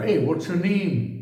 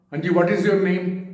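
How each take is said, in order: First: "what's your name" said in one smooth, linked, slow phrase; right pronunciation. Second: "what is your name" said stiffly, every word given equal weight; plodding, word by word, each word stressed the same; wrong pronunciation. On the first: Teacher showing students the right way to say it, smooth and linked. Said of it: "ये बोलने की कला है". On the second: Teacher showing students the wrong way to say it, stiff and even. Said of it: "तो आपने ठीक नहीं बोला". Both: Shown as a demonstration.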